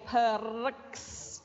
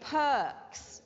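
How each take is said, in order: First: The R sound is clearly pronounced. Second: The R sound is silent. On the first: The speaker calls it wrong. "You can't hear me saying perks. No" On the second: The speaker calls it right. "it's perks. It's a silent R"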